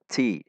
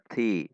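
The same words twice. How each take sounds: First: The t has a strong burst of air. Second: The t has only a light burst of air. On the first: The speaker calls it wrong. "Tidak dibaca ti" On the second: The speaker calls it right. "Namun dibaca ti"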